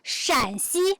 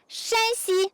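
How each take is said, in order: First: The first syllable has a dipping tone. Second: The first syllable has a high level tone. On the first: It names the province where the speaker is. "the third accent" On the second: It names the province across the river. "the first accent"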